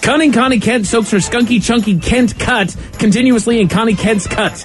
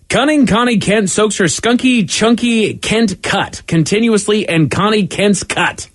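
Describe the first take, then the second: First: It is read quickly, rushing through the words. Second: It is read at a normal, careful speed.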